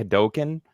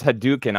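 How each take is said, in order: First: Hadouken with a long o in the middle; Hadouken with DOH. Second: Hadouken with an oo in the middle; Hadouken with DOO. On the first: Shown as a demonstration. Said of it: "I always say Hadouken wrong". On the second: Retold or imitated. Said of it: "he says Hadouken".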